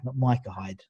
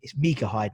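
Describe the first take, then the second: First: The first name begins with an 'eye' vowel. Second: The first name begins with an 'ee' vowel. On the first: The speaker calls it wrong. "they call him Micah" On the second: The speaker calls it right. "it was Mika"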